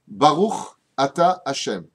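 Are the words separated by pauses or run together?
pauses. Each word is separated by a short pause. The speaker calls it right. "La bénédiction se coupe en trois wagons différents"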